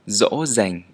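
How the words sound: The first sound is like an English z. "in the northern dialect, y would sound like z"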